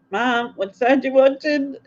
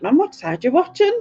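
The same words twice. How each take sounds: First: Higher, weary exasperation; exasperated question. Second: Higher, laughing exasperation; exasperated question. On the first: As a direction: ask it fed up for the third time. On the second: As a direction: ask it half laughing, fed up. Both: Retold or imitated. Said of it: "And I'm like".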